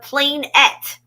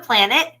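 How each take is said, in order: First: The word ends in a full 'net' sound. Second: The word ends in a short, weak 'nit' sound. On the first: The speaker calls it right. "It's a planette" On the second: The speaker calls it wrong. "We're just saying it wrong"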